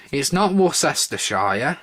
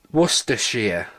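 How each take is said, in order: First: "Worcestershire" said slowly as wor-ses-ter-shire, every letter sounded; wrong pronunciation. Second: "Worcestershire" said short as wuss-tuh-sheer; correct pronunciation. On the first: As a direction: spell out "Worcestershire" in full as the wrong way. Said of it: "myths about how you pronounce it". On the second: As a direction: clip "Worcestershire" down to three quick syllables. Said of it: "That's how you say it". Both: Shown as a demonstration.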